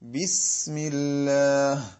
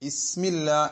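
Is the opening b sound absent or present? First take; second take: present; absent. First: The opening b sound is clearly pronounced. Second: The opening b sound is dropped. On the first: The speaker calls it right. "ബ ബി എന്ന അറബിയിലെ അക്ഷരം നമ്മൾ വ്യക്തമായി ഉച്ചരിച്ചിട്ടാണ് സീനിലേക്ക് കടക്കേണ്ടത്" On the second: The speaker calls it wrong. "ഇസ്മില്ല എന്നോ മറ്റോ ആണ് പറയുന്നത്"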